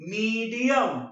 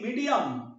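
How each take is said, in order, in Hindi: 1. पहला स्वर लंबा है और उस पर ज़ोर है। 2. पहला स्वर छोटा है और हल्का है। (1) "You emphasize the word me" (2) "बड़ी नहीं रहेगी बाबा, छोटी रहेगी"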